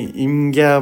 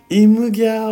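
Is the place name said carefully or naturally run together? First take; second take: natural; careful. First: It is said naturally, with an 'in' sound. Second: Each sound is said carefully, with a clear 'imu'. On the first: "普通にナチュラルに発音して" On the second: "イムなんですよ"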